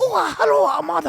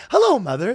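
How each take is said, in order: First: Put-on high, loud caricatured Asian accent; hammed-up Asian-accent greeting; mock Asian accent. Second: High, loud British schoolboy greeting; chirpy put-on British schoolboy. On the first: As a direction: squeal it in a cartoon Asian accent. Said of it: "in a racist Asian accent". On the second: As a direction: greet mum in a mock British accent. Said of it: "a British schoolboy".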